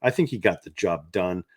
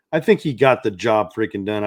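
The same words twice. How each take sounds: First: Said in the usual way. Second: "freaking done" punched louder; loud, emphatic hit on "freaking done"; emphatic repeat. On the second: Real, not acted. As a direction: drive home "job freaking done" with more force.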